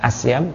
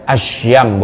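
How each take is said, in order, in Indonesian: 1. Konsonan setelah vokal pertama adalah 's'. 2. Konsonan setelah vokal pertama adalah 'sh'. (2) "yaitu dengan ada titik tiga"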